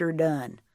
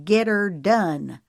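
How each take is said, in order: First: Said in the usual way. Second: Slow, louder, mocking: "get her done" spaced word by word; enunciating every word. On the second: A narrator's reading. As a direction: throw "get her done" back, each word stressed. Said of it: "enunciating every word".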